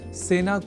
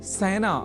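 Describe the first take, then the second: First: The first vowel is a plain 'e' sound. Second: The first vowel is an 'ai' sound. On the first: The speaker calls it right. "सेना को" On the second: The speaker calls it wrong. "सेना बोल जाने की प्रवृत्ति"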